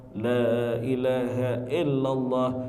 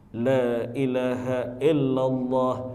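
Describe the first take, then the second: Both takes have the same delivery.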